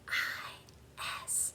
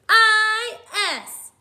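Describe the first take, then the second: First: The letters are whispered very softly. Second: The letters are shouted very loudly. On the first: "Whisper spell it with me" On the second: "Shout it with me"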